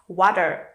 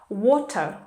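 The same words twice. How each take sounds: First: It is said in an American accent. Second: It is said in a British accent. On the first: "is American" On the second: "is British"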